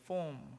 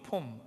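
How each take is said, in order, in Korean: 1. 이 단어는 영어 억양으로 발음됐어요. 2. 이 단어는 한국어 억양으로 발음됐어요.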